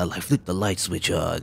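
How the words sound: It is said in an evil Mamoru voice.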